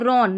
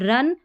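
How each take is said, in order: First: The vowel is a rounded 'aw' sound. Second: The vowel is a short 'uh' sound. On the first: The speaker calls it wrong. "रॉन नहीं" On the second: The speaker calls it right. "रन पढ़ना है"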